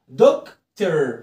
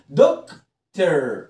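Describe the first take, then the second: First: The ending is a weak 'er' sound. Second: The ending is a weak 'er' sound.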